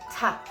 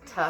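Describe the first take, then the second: First: Crisp, short "ta"; staccato T. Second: Plain "tuh" for T; ordinary T. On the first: Teacher showing the proper consonant, staccato T. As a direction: punch out a staccato T. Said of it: "have the staccato to it". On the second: Teacher showing what is insufficient, ordinary T. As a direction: give the T loosely, without punch. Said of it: "But it's not just T". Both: Shown as a demonstration.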